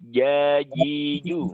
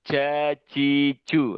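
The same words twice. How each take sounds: First: The syllables are said cleanly with no escaping breath. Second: The syllables are said with audible escaping breath. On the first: The speaker calls it right. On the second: The speaker calls it wrong.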